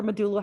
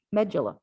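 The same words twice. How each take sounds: First: "medulla" stressed on the middle syllable, muh-DOO-luh; "medulla" with a long oo and hard d; alternative pronunciation. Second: "medulla" stressed on the first syllable, MEJ-uh-luh; first pronunciation variant. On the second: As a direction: say "medulla" as MED-juh-luh, front-stressed. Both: Shown as a demonstration. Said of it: "however you wanna say it".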